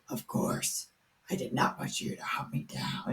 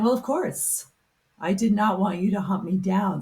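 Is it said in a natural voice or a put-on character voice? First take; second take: character voice; natural. First: It is said in a put-on Frankenstein voice. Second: It is said in the speaker's natural voice.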